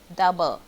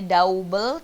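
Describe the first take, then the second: First: The first vowel sounds like 'uh' in cup. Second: The first vowel sounds like 'ow' in mouse. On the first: The speaker calls it right. "tapi ah" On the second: The speaker calls it wrong. "Bukannya double"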